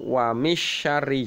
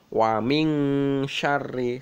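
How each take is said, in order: First: The n sound is left out entirely. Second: The n sound is soft and muffled. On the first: The speaker calls it wrong. "atau wa misyarri juga tidak boleh" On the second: The speaker calls it right. "Jadi samar-samar"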